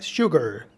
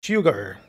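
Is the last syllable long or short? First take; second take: Short; Short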